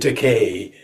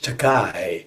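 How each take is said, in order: First: The last syllable sounds like 'ay'. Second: The last syllable sounds like 'eye'. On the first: The speaker calls it right. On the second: The speaker calls it wrong.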